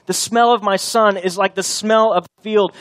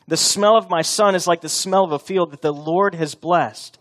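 First: Higher and louder, leaning on smell; emphatic repeat. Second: Said in the usual way. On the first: Shown as a demonstration. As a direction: drive home "smell" with force. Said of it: "repeated line, louder and higher". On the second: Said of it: "repeats the line for emphasis".

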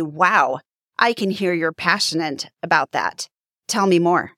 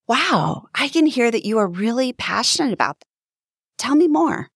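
First: Closed-off, uninterested. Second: Higher, brighter and quicker with real interest; engaged, curious and lifted; leaning in, curious. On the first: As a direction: say it like you don't really care. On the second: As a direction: sound genuinely eager to hear more. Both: Shown as a demonstration. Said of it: "Do you hear the difference?".

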